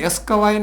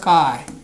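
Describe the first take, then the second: First: An extra vowel sound comes before the s. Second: The word begins directly with the s sound. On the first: The speaker calls it wrong. "અસ્કવાય નહીં" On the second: The speaker calls it right. "નહીં સ્કાય"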